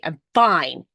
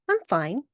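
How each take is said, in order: First: It sounds annoyed, meaning she is not fine. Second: It sounds calm, meaning she is truly okay.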